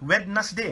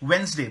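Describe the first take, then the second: First: The middle d sound is pronounced. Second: The middle d sound is silent. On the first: The speaker calls it wrong. "वेडनेसडे होइन" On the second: The speaker calls it right. "वेन्सडे भन्नुहोस् त"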